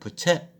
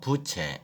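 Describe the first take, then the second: First: The first vowel is said short. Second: The first vowel is said long. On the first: The speaker calls it wrong. "부채 이렇게 하면 안 되고" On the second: The speaker calls it right. "부를 좀 길게 해서 부채 이렇게 발음하는"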